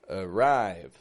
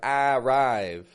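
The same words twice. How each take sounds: First: The first vowel is a weak schwa. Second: The first vowel is a full, clear vowel. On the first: The speaker calls it right. "but uh, arrive. Weak" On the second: The speaker calls it wrong. "I'm not saying arrive"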